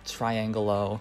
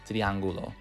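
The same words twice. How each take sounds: First: The word has an American pronunciation. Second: The word has a Spanish pronunciation. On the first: The speaker calls it wrong. "we tend to Americanize the pronunciation" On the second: The speaker calls it right. "It's actually pronounced triangulo"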